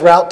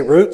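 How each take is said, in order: First: Route said to rhyme with "out"; route with an "ow" vowel; route as "rowt". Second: Route said to rhyme with "boot"; route with an "oo" vowel; route as "root". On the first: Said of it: "usually that's what I say". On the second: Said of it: "If they say route sixty-six". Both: Shown as a demonstration.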